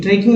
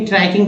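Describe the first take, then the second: First: ट्रिकिंग with short i, said quickly; quick trick-ing for ट्रिकिंग; rejected pronunciation. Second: ट्रैकिंग with an ai glide, said quickly; quick try-king for ट्रैकिंग; ai vowel pronunciation. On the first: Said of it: "ट्रिकिंग नहीं, ट्रैकिंग पढ़ेंगे". (ट्रिकिंग को छोटी 'इ' से जल्दी बोलना) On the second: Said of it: "ट्रैकिंग पढ़ेंगे". (ट्रैकिंग को 'ऐ' से जल्दी बोलना) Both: Shown as a demonstration.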